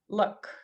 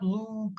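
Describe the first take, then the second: First: The vowel is a short u sound. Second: The vowel is a long oo sound. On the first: The speaker calls it right. "It's more of a uh" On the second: The speaker calls it wrong. "it's not ooh, it's not"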